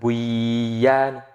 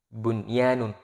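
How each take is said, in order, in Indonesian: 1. Bunyi n sebelum y hilang. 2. Bunyi n sebelum y jelas. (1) "bukan buyan" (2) "bunyanun bukan buyan"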